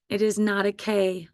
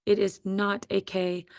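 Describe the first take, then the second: No difference in how they are said.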